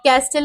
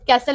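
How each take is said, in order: First: A t sound is pronounced in the middle. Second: No t sound is pronounced in the middle. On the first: The speaker calls it wrong. "कैस्टल नहीं होता है" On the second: The speaker calls it right. "कैसल होता है"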